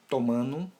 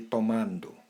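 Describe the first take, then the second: First: The D after the nasal is dropped. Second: The D after the nasal is pronounced.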